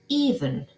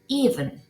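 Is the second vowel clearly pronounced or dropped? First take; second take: dropped; dropped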